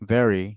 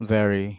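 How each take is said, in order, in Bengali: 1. এটা ইংরেজ স্থানীয় উচ্চারণে বলা হয়। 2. এটা ইংরেজ স্থানীয় উচ্চারণে বলা হয়।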